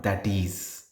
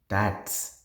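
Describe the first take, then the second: First: It is said as two full words. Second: It is said as one contracted word. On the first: The speaker calls it wrong. "it is not uh, it is or that is" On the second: The speaker calls it right. "So it is that's"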